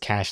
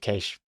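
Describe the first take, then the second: First: The word is pronounced exactly like cash. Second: The word is pronounced differently from cash. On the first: Most people say it this way. "everyone says cash" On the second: Only a few people say it this way. "instead of cache"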